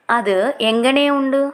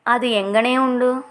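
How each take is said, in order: First: Slow, clear teacher repeat of అది ఎంగనే ఉండు; drawn out for learners to copy; slow model repeat. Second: Said in the usual way. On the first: Shown as a demonstration. (నెమ్మదిగా, స్పష్టంగా మళ్ళీ చెప్పడం)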